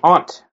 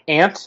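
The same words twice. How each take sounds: First: It is said in a British accent. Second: It is said in an American accent. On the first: "they say aunt" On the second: "We say aunt"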